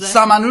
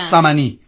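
First: The word ends in an 'oo' vowel. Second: The word ends in an 'ee' vowel.

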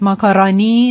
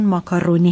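First: The third syllable has an 'a' vowel. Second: The third syllable has an 'o' vowel. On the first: The speaker calls it wrong. "این الف نیست" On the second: The speaker calls it right. "درست اون ماکارونی هست"

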